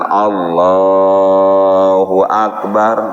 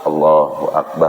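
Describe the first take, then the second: First: It is said fairly loudly. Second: It is said very quietly.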